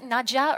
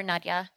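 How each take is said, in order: First: "Nadja" with a hard j; j as in jam. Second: "Nadia" with a soft y glide. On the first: Asking which pronunciation is right, "Nadja" with a hard j. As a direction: say "Nadja" as NAD-juh, with a j sound. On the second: Asking which pronunciation is right, "Nadia" with a y glide. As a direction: say "Nadia" as NAD-ya, no j sound. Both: Shown as a demonstration. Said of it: "do we pronounce it".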